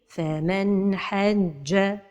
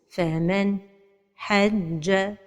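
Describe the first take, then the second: First: The n sound is short, clear and flowing. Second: There is a pause right after the n sound. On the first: The speaker calls it right. "la prononciation correcte" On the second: The speaker calls it wrong. "La troisième erreur, c'est la pause"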